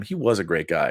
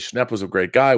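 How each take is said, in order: First: "was" stressed, falling to a softer close. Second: Said in the usual way. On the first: Real, not acted. Host confirming a viewer's praise of a friend, stress on "was". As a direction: affirm it by leaning on "was". Host affirms the comment he read.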